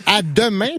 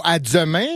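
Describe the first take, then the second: First: Said in the usual way. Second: Demain said as dzemain; wrongly added z. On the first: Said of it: "c'est les seules voyelles". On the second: Shown as a demonstration. Showing newcomers the wrong way, demain as dzemain. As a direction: buzz a z after the D of demain. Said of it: "pas à demain".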